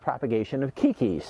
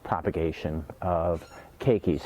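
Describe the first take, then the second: First: The word begins with a 'kee' sound. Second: The word begins with a 'kay' sound. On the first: A non-Hawaiian speaker said it this way. The speaker calls it wrong. "some video by a not Hawaiian person who said" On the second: This is how Hawaiian speakers say it. The speaker calls it right. "the proper pronunciation is keiki"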